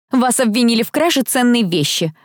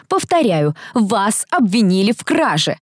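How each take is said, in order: First: Higher, stern accusation; understated angry matron; furious mistress. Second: Slow, deliberate stern accusation; measured official severity; stern repetition. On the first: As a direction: announce the charge indignantly. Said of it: "разъярённая госпожа Кэлман". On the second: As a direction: repeat the charge word by word. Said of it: "повторила комендант". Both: A narrator's reading.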